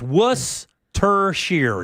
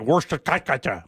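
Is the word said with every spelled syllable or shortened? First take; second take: shortened; every syllable. First: The word is said in a shortened form. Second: Every spelled syllable of the word is sounded. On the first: The speaker calls it right. "but it's Worcestershire" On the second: The speaker calls it wrong. "because it looks like Worcestershire"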